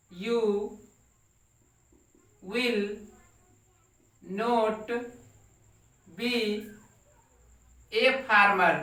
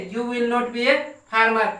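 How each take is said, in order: First: Each word set apart by long pauses; slow word-by-word dictation. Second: Said in the usual way. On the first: Shown as a demonstration. Teacher dictating to the class, word by word, slowly. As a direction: dictate it one word at a time for students to copy. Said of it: "teacher dictating word by word". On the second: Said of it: "teacher repeats sentence".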